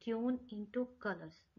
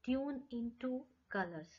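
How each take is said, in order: First: Very slow, word by word; very slow teacher demo; slow careful demo. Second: Said in the usual way. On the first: Shown as a demonstration. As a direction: say it slowly so they can hear each word. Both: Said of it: "ध्यान से सुनिए".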